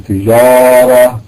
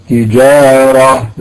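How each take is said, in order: No difference in how they are said.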